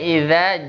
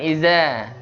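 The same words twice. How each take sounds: First: The consonant is a soft voiced 'th' sound. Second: The consonant is a buzzing 'z' sound. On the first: The speaker calls it right. "Jadi bacanya iza" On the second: The speaker calls it wrong. "bukan iza"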